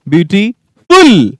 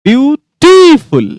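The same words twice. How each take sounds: First: The stress is on the third syllable. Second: The stress is on the second syllable. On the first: "कभी third पे" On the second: "कभी second पे"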